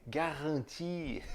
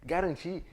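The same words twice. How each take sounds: First: "garantir" devagar, com r francês e sem r final; pronúncia francesa lenta. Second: Said in the usual way. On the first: Shown as a demonstration. ("garantir" em francês, devagar) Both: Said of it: "adaptaçõezinhas".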